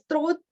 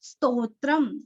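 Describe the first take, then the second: First: The r sound comes right after the st. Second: The r sound comes after the second t. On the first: The speaker calls it wrong. "ऐसे गलत उच्चारण" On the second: The speaker calls it right. "आधा स तो स्तो त्र त्र"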